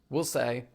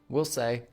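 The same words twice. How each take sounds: Both takes have the same delivery.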